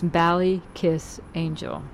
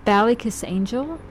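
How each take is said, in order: First: "Ballykiss" said slowly and deliberately, falling to a settled finish; slower, more certain take on the name; slow careful retry. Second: Ballykiss Angel read the way it's spelled, rising like a question; tentative spelling-based guess with a questioning rise; unsure first try at the name. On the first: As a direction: carefully spell out "Ballykiss Angel" syllable by syllable. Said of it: "That's how it looks". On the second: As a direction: sound out "Ballykiss" uncertainly, lifting at the end. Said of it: "I'm not sure I know how to say it". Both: Shown as a demonstration.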